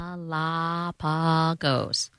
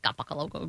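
First: The word is said slowly and carefully. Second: The word is said quickly and slurred. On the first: The speaker calls it right. "I have to say it slowly" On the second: The speaker calls it wrong. "otherwise it's Galapagos"

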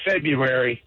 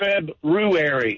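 First: The r after 'Feb' is dropped. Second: The r after 'Feb' is pronounced. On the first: The speaker calls it wrong. "but everybody says February" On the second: The speaker calls it right. "the proper pronunciation for February is February"

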